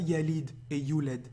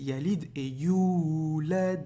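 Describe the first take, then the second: First: No vowel is lengthened; all vowels are short. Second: One vowel is clearly drawn out and lengthened. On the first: The speaker calls it wrong. "c'est pas yalid et yulad" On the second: The speaker calls it right. "Il y a une prolongation ici"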